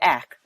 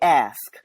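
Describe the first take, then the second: First: The word ends with a plain k sound. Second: The word ends with an s-k cluster. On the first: This is how it is said among the community. "So we say ack or ah" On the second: This is the form required when code switching. "we must say ask"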